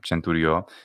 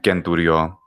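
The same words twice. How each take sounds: First: It uses the ecclesiastical Latin pronunciation. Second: It uses the classical Latin pronunciation. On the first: "pronunciations of Latin ecclesiastical" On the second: "in classical Latin pronunciation"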